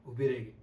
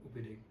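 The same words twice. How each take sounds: First: ઊભી said loud and firm, falling away after; firm dramatic emphasis. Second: Soft, low dramatic repeat; hushed echo. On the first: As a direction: land hard on ઊભી, then let it drop. Dramatic line, first take louder. (ઊભી પર ભાર દઈને, મોટેથી) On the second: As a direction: let it sink, much quieter and lower. Line echoed softly after long pause. (ધીમા, નીચા અવાજે) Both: Acted.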